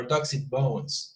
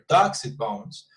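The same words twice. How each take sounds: First: Slow phrase leaning on bones; Betonung auf BONES. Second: Dogs punched at the front, falling after; Betonung auf DOGS. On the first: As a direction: save the weight for bones at the end. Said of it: "or on bones". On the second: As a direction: hit the word Dogs. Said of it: "emphasize either on dogs". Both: Shown as a demonstration.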